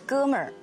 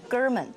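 First: The word ends with an r-colored sound. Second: The word ends without an r-colored sound. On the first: The speaker calls it right. "应该是哥们儿" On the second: The speaker calls it wrong. "我老公说你这不对"

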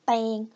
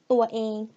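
First: One syllable; the two syllables merge into one. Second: Two syllables; the first has a long vowel. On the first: "when you speak faster, from ตะเอง become เตง" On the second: "both of them are long vowel"

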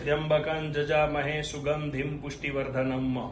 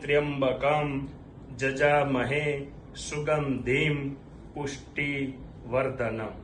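First: The words run together without breaks. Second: Each word is set apart by pauses. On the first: This is the continuous recitation of the mantra. "આખો પહેલેથી લઈને છેલ્લે સુધી હું બોલી ગયો" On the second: This is the word-by-word recitation of the mantra. "આ મંત્ર છૂટો પડ્યો, આને પદપાઠ કહેવાય"

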